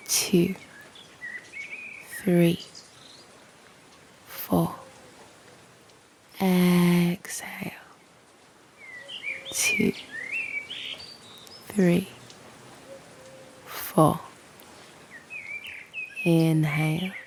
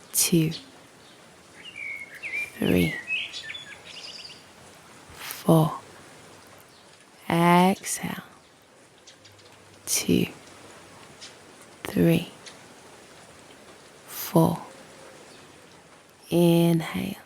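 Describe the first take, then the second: No difference in how they are said.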